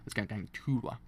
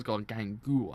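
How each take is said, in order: First: The name is said with a t sound. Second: The name is said without a t sound. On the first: The speaker calls it right. "That's better" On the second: The speaker calls it wrong. "I thought it's got Gangua. I think I didn't know it's actually a T in it"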